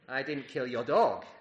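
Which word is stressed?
dog. The word 'dog' carries the emphasis.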